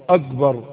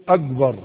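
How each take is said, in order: The two takes are said the same way.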